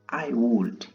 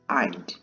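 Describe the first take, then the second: First: Both words are said in full. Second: The words are contracted into one syllable.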